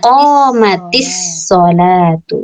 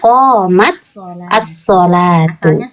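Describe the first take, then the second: First: The t joins the next word with an i. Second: The words are said apart, ending in t. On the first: "Makanya dibacanya qomatis sholatu" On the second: "kalau mau dibaca pisah-pisah"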